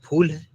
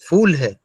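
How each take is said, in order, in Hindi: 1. शब्द की शुरुआत महाप्राण p की आवाज़ से होती है। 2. शब्द की शुरुआत f की आवाज़ से होती है। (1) "जबकि आप कहना चाह रहे हैं वो फूल है" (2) "वो आदमी समझेगा कि मैं बेवकूफ हूं"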